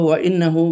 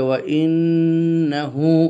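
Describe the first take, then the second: First: The nasal n sound is cut short quickly. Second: The nasal n sound is held for two counts. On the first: The speaker calls it wrong. "তাড়াতাড়ি বলে গেলে সে গুন্না করা হলো না" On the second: The speaker calls it right. "এক্ষেত্রে সে পুরোপুরি আদায় করেছে"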